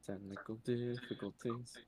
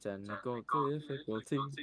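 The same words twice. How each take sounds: First: Faint echoed repeat, much softer; like your own voice bouncing back. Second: Said in the usual way. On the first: Real, not acted. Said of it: "I can hear myself echo while wording". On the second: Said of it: "I can hear myself echo".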